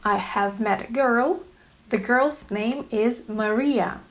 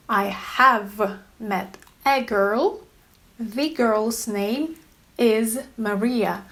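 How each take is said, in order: First: Said in the usual way. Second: Slow, leaning on "a" and "the"; stressed articles. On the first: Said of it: "Let me make an example". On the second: Shown as a demonstration. Teacher slowly stressing "a" and "the" for learners. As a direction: slowly hit "a" in "met a girl" and "The" in "The girl's name". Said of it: "I've used two auxiliary verbs".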